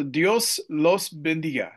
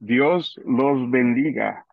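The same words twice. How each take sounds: First: Slow gringo-accented "Dios los bendiga"; Spanish with a heavy American accent. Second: "Dios los bendiga" said slowly and clearly in native Spanish; slow Spanish demo. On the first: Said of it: "my gringo accent there". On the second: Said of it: "teach us all a simple way to say". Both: Shown as a demonstration.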